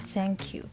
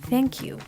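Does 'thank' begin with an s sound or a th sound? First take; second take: s; th. First: The word starts with an s sound. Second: The word starts with a th sound. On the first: The speaker calls it wrong. "instead of" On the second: The speaker calls it right. "stick your tongue out a little bit more"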